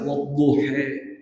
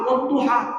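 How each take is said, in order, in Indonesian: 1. Vokal akhirnya adalah bunyi 'e'. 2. Vokal akhirnya adalah bunyi 'a' yang terbuka. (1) "Jadi wadduhe adalah ada dibiarkan oleh Nabi" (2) "kalau orang kita menyemat wadduha"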